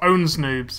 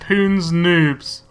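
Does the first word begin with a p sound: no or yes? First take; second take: no; yes. First: The first word begins with a vowel sound. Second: The first word begins with a p sound. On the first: The speaker calls it right. "You pronounce it owns, even with a P" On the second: The speaker calls it wrong. "Don't pronounce the P"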